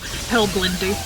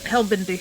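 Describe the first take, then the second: First: It is said with an L after the B. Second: It is said without an L after the B. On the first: "you pronounce it the exact same way, but with the L" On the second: "I'm taking a letter out of his name so I can pronounce it"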